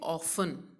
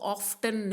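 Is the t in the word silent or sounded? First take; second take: silent; sounded. First: The t sound is left out. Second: The t sound is clearly pronounced. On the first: The speaker calls it right. "इस word में टी silent है" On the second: The speaker calls it wrong. "आप इसको ऑफ्टन नहीं बोलोगे"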